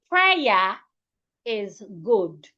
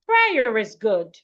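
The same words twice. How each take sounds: First: The final R is separated from the next word. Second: The final R links smoothly into the next word. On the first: The speaker calls it wrong. "An average Ghanaian will say" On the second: The speaker calls it right. "Put them together as one"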